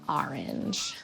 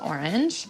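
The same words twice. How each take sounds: First: It is said in a New York-style accent. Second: It is said in the speaker's plain accent.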